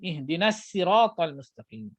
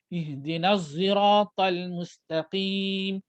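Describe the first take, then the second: First: Sirat begins with a light plain s sound. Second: Sirat begins with a z-like rounded sound. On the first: "Ada riwayat lain baca dengan sin" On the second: "Ada baca dengan za yang muncung"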